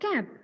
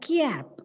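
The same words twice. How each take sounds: First: No extra y sound follows the first consonant. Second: An extra y sound follows the first consonant. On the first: The speaker calls it right. "Correct pronunciation is cap" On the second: The speaker calls it wrong. "you might have heard some people pronouncing it as cap"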